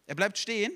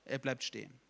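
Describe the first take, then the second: First: "bleibt" higher and louder, voice left up at the end; lifted, louder stress on "bleibt"; emphatic repeat. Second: Said in the usual way. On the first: Real, not acted. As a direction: drive home "bleibt" with a raised voice.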